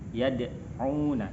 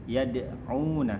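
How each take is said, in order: The two takes are said the same way.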